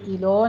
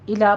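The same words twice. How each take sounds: First: الو with a rounded u; mispronounced الو; wrong pronunciation. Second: الا with an open a, thin lam; careful الا; correct tajweed. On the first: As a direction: say الو ending in u. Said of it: "الو نہیں کہنا". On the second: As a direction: say الا with a clear light lam. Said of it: "الا پڑھنا ہے". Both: Shown as a demonstration.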